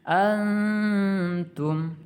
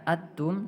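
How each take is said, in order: First: The n is softened into a held nasal hum. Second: The n sound is left out entirely. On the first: The speaker calls it right. "sedikit ditahan dengan dengungan" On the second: The speaker calls it wrong. "tidak dibaca atum"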